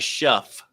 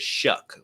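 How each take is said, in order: First: The name ends with an f sound. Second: The name ends with a k sound. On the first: This is how the spelling seems to read. The speaker calls it wrong. "It looks like Shuff" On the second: This is how the name is actually said. The speaker calls it right. "but it's Shuck, like shucking corn"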